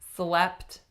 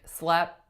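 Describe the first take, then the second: First: The final T sound is clearly released. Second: The final T sound is left out. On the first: The speaker calls it right. "to release your T" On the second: The speaker calls it wrong. "If I didn't say the T"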